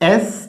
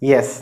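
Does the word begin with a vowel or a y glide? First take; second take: vowel; y glide. First: It begins directly with the vowel, no glide. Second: It begins with a y glide before the vowel. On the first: It is heard as the letter. The speaker calls it right. "എസ് എന്ന് പറയണം" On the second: It is heard as the word yes. The speaker calls it wrong. "നമ്മളിതിന് യെസ് എന്നാണ് പറയാം"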